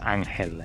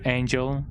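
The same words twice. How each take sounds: First: The name is said the Spanish way. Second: The name is said the English way. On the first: The speaker calls it right. "It is supposed to be pronounced as Angel eh, because she is from Mexican descent" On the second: The speaker calls it wrong. "how people pronounce Angel"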